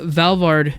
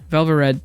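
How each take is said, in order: First: The name is said with two syllables. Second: The name is said with three syllables. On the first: The speaker calls it wrong. "we've been saying it wrong this entire time" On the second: The speaker calls it right. "it was always Valvarad"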